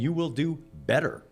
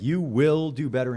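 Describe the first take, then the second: First: The word better carries the emphasis. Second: The word will carries the emphasis. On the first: "or am I saying you will do better?" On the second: "or am I saying like you will"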